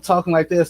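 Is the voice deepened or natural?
natural. The voice is at its natural pitch. This is how he really talks.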